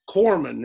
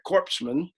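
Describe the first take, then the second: First: It begins like 'core', with p and s silent. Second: It begins like 'corpse', with p and s sounded.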